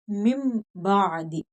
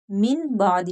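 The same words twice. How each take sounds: First: मिम with a long hummed m into बादी; n changed to m. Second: मिन with a clear n before बाद; wrong n sound. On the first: Teacher models qalb for students, slow nasal m in मिम. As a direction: hold the m of मिम, slowly, then बादी. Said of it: "मीम के साथ बदल कर पढ़ेंगे". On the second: Teacher shows students the reading to avoid, n kept in मिन. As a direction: say मिन unchanged, ending on n. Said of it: "नहीं कहेंगे". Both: Shown as a demonstration.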